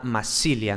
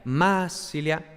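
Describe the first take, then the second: First: Said in the usual way. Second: "masilia" as MAA-silia, first syllable drawn out; "masilia" with a heavy initial accent; stress on first syllable. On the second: Shown as a demonstration. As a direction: hit and stretch the MA in "masilia", let "silia" fall away. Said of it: "la sílaba inicial".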